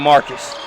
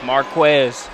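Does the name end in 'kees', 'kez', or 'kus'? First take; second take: kus; kez. First: The name ends with a 'kus' sound. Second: The name ends with a 'kez' sound. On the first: The speaker calls it right. "everything but a Marcus" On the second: The speaker calls it wrong.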